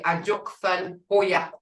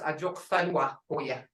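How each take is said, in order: First: The middle word is cut short, ending syllable dropped. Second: The middle word is said in full, syllable kept. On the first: This is the everyday spoken form. "the way we speak, we say a Joksan Hoya" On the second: This is the full form of the word. "Right here is a Joksanwa Hoya"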